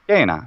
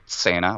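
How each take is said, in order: First: The word begins with a hard k sound. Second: The word begins with a ts sound. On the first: This follows the ancient classical pronunciation. The speaker calls it right. "It must be" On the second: This follows the later German school pronunciation. The speaker calls it wrong. "like it is in the German pronunciation"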